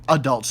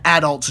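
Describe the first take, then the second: First: Said in the usual way. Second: ADULTS with a Boston accent, stressed on the first syllable; Boston-accented ADULTS, said AD-ults. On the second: Real, not acted. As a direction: let Boston slip into ADULTS, hitting AD. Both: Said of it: "There goes my Boston accent".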